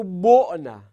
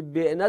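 First: بعنه with damma, said bonæ; بعنه as bonæ, rounded o after b; passive form. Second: بعنه with kasra, said benæ; بعنه as benæ, front short e after b; active form. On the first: Teacher contrasting the passive form, بعنه said bonæ. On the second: Teacher giving the active form, بعنه said benæ. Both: Shown as a demonstration. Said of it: "در معلومش گفتی بعنه، در مجهولش بگو بعنه".

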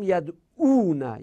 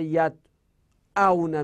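First: Said in the usual way. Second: یدعونه stretched very slowly, each syllable clear; slow teaching example. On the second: Shown as a demonstration. Teacher modelling the verb form for students, very slow. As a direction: draw out یدعونه for students to copy.

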